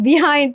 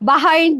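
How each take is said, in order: First: The first vowel is a clear 'bi' sound. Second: The first vowel is an open 'ba' sound. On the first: This is how people back home say it. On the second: This is how people there say it.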